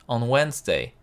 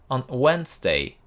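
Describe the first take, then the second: No difference in how they are said.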